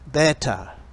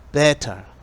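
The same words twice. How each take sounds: No difference in how they are said.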